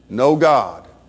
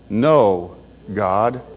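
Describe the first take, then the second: First: The two words run together without a pause. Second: There is a pause between the two words. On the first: There is no God. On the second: The speaker is refusing God.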